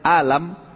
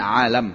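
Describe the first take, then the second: First: It starts with a plain glottal stop. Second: It starts with a throaty ain sound. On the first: It means pain or sickness. The speaker calls it wrong. "kalau antum ubah hamzah alam, itu artinya sakit" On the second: It refers to everything other than God. The speaker calls it right. "pakai ain"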